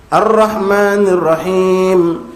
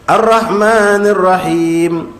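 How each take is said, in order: No difference in how they are said.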